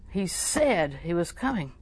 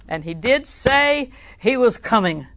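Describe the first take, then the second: First: Said in the usual way. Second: DID SAY stretched slow, high and loud; emphatic insistence. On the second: Real, not acted. Preacher insists on God's promise.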